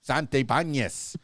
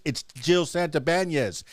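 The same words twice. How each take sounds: First: Santabanez said the Spanish way, Sahn-tay-PAHN-yes, in a Cuban Spanish accent. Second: Said in the usual way. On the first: Shown as a demonstration. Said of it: "with my Cuban Spanish accent". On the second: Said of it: "I'm always gonna say Santabanez".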